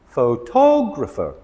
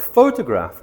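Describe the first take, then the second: First: "photographer" said slowly with TOG stressed; pho-TOG-rapher, slow and clear. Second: "photograph" with the first syllable PHO stressed; PHO-tograph, stress up front. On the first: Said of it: "we stress the tog". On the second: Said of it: "we emphasis the pho". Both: Shown as a demonstration.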